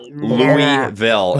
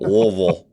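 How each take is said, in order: First: The name is said fully, every syllable clear. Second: The name is swallowed, said low in the throat. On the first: The speaker calls it wrong. "It's not" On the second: The speaker calls it right. "You got something stuck in your throat"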